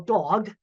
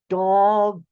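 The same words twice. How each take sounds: First: It is said at normal speed. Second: It is said slowly, each sound drawn out.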